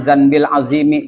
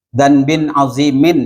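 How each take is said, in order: First: The first word ends in -il, linked. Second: The first word ends in -in, nunated. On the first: The sin belonging to the one named the Great. The speaker calls it wrong. "jangan zanbil azimi, jangan" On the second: A great sin that we commit. The speaker calls it right. "Dzanbin azimin ya"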